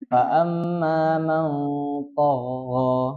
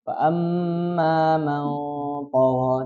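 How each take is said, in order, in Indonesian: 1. Vokal setelah t dibaca panjang. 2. Vokal setelah t itu pendek. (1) "jadi tidak" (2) "tonya itu pendek"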